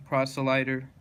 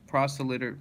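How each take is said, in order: First: "proselyter" with -lyt- like "light"; long i. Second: "proselyter" with -lyt- like "lit"; short i. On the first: Reader trying out a hard word, "proselyter" with a long i. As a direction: say "proselyter" as PROSS-uh-lie-ter. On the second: Reader trying out a hard word, "proselyter" with a short i. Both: Shown as a demonstration.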